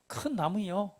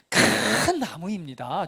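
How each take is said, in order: First: It sounds doubtful and half-hearted, like a question. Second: It sounds confident and sincere, like a firm blessing.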